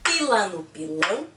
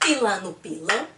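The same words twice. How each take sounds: First: It is said at a slower pace. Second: It is said at a faster pace.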